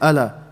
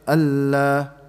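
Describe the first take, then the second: First: The l sound is short, not held. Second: The l sound is held longer than normal. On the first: The speaker calls it wrong. "don't say ala" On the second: The speaker calls it right. "you say Allah"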